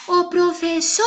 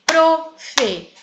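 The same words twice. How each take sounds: First: Called-out "professora" with SO held very long; higher calling voice, long SO in "professora"; stretched stressed syllable. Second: "Professora" broken into four separate beats; slow, evenly split "Professora"; syllable by syllable. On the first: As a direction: hail "professora", dragging out the third syllable. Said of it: "A que foi pronunciada durante mais tempo". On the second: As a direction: count out each syllable of "Professora" slowly, pausing between. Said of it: "Segundo a quantidade de sílabas". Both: Shown as a demonstration.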